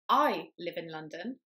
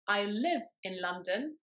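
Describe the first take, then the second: First: The stress falls on the word I. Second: The stress falls on the word live. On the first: The speaker, not the listener, lives there. "I, rather than you, live in London" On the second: The speaker lives there but works elsewhere. "When I stress live"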